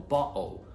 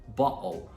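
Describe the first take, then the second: The two takes are said the same way.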